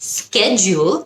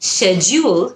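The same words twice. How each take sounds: First: The word is said with an American pronunciation. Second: The word is said with a British pronunciation. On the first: "schedule হলো American" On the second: "schedule হলো British"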